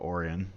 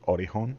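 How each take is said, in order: First: The name is said without an h sound. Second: The name is said with an h sound. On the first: It follows the simpler English reading. "we're just gonna call it Orion" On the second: It follows the Japanese reading. "if it was Japanese pronunciation with like Romaji"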